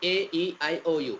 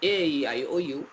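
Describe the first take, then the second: Both takes have the same delivery.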